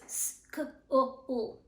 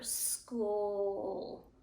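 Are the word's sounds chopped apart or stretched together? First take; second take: chopped; stretched. First: The sounds are chopped apart with breaks. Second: The sounds are stretched out and kept joined. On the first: The speaker calls it wrong. "it sounds like a knife is cutting the word" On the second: The speaker calls it right. "if they stretch it, they keep those sounds together"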